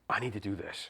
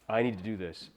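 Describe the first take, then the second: First: It is said with a lot of breath. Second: It is said plainly, with no audible breath.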